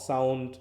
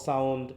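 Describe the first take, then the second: No difference in how they are said.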